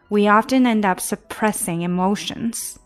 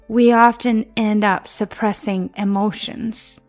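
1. 这句话语速较快。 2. 这句话语速较慢。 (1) "加快一些吧。" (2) "我们现在从头读。"

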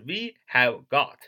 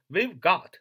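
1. 每个词都单独、完整地读出。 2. 这几个词连在一起读，是缩读形式。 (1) "不连读是We have got" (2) "we've，是连读"

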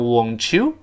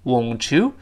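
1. t和y合并成一个ch音。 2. t和y合并成一个ch音。

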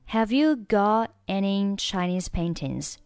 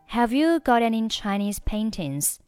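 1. 'got' 中的 t 完全不发音。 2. 'got' 中的 t 浊化并连读。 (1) "或者你可以选择got 末尾不发音" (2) "got 和any 你可以选择连起来读成got any，注意要浊化一下"

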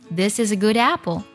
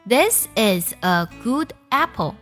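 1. 词尾辅音会顺畅地连到下一个单词的元音上。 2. 每个单词单独发音，不连读。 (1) "所以呢句子听起来就是" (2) "如果不会连读，读出来的效果是这样子的"

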